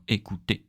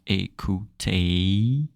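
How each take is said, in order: First: "écouter" with a short pure final é; crisp quick "écouter"; short French écouter. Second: "écouter" slowed down with a long gliding end; drawn-out wrong écouter. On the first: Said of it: "Very short". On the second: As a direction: drag out "écouter" as the wrong version. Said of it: "not écouter". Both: Shown as a demonstration.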